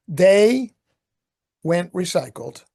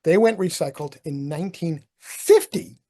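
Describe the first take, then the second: First: They... went recycled, paused and punched; कहानी की तरह रुककर "went" पर ज़ोर; stress on went. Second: Said in the usual way. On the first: Shown as a demonstration.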